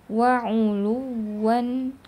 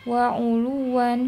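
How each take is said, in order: First: The doubled 'w' is held softly but clearly. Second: The doubled 'w' is barely heard at all. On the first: The speaker calls it right. "tetap lembut dibacanya" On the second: The speaker calls it wrong. "tidak terlihat wawnya ini ada tasdidnya atau tidak"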